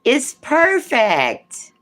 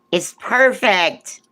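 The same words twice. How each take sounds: First: Much higher, very slow stretched coo; drawn-out cooing. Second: Cooing. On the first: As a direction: stretch it out, delighted and high. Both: Real, not acted.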